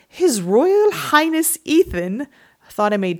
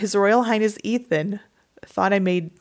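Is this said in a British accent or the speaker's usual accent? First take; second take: British; usual. First: It is said in a put-on British accent. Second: It is said in the speaker's usual accent.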